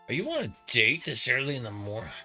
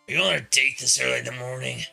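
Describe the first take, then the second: First: It is said in a normal speaking voice. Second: It is said in a put-on character voice.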